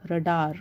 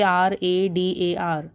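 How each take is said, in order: First: "radar" said as one word; read as a word. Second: "R A D A R" said letter by letter; name each letter in "R A D A R"; spelled out. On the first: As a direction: blend the letters into "radar". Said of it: "You pronounce it as radar". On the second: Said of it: "You don't say". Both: Shown as a demonstration.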